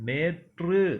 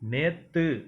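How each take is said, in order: First: It is said in the formal pronunciation. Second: It is said in the colloquial pronunciation. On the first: The speaker calls it right. "நேற்று அப்படின்னு சொல்லணும்" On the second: The speaker calls it wrong. "நேத்துன்னு சொல்லாமல்"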